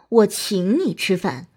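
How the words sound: The stress is on the word 请. "突出请"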